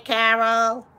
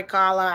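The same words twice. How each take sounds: First: "Carol" said as kʰæɹl, the misread name. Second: "Carla" said as kʰɑɹlə, two clear syllables; corrected name. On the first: Reading chat, greets "Carol" with the wrong name. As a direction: greets a viewer as "Carol" by mistake. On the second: Corrects her misreading of the viewer's name, "Carla". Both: Real, not acted. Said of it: "Carla, I'm sorry".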